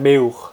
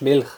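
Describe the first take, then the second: First: It is said in local dialect, L as U. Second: It is said in Standard German.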